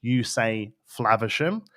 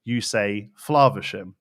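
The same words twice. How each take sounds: First: Flaversham with the short A of "cat". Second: Flaversham with a long "ah", as "Flahversham". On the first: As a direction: say Flaversham slowly, first vowel as in "flav". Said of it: "So if you say grass and bath". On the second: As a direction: say Flaversham slowly, first vowel as in "father". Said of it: "If you say grass or bath". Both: Shown as a demonstration.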